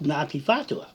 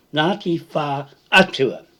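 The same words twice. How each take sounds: First: Ngāti Whātua run together as one word; the form he rejects: Ngāti Whātua run together; rejected pronunciation. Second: Ngāti Whā Atua, with Whā and Atua split apart; Ngāti Whā Atua, split and stressed on Ngāti; correct pronunciation. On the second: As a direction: say "Whā Atua" as two words with a long Whā. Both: Shown as a demonstration. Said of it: "and not Ngāti Whātua".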